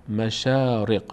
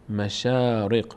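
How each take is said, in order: Both takes have the same delivery.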